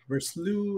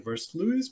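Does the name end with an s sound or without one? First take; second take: without s; with s. First: The name is said ending without an s sound. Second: The name is said ending with an s sound. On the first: The speaker calls it right. "apparently it's just Verslu and just uh, toned down from there" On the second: The speaker calls it wrong. "I used to say Versluis"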